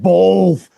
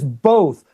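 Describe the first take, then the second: First: It is said with an L sound. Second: It is said without an L sound. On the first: The speaker calls it wrong. "not both. There's no L in both" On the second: The speaker calls it right. "The word is both"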